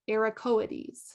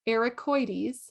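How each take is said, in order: First: The o and i are said as separate vowels. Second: The o and i blend into one 'oy' sound. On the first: This is the European way of saying it. "If you were in Europe, they would say it" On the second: This is the American way of saying it. "we say it like an oil, the O I"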